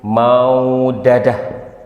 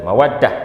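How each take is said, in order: First: A vowel splits the two d sounds apart. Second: The two d sounds merge into one long d. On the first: The speaker calls it wrong. "Dan ini adalah yang salah" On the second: The speaker calls it right. "Ini adalah yang benar"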